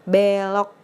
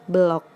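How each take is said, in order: First: The first vowel is a clear e sound. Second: The first vowel is a weak neutral sound. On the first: "Berarti E-nya harus pakai E curek" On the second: "Kalau nggak ada cureknya, itu pelafalannya belok"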